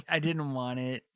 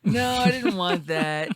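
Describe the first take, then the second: First: Said in the usual way. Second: Loud, high, drawn-out refusal; emphatic denial. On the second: Real, not acted. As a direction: protest firmly, slow and raised. Rejecting the mocked presenter voice.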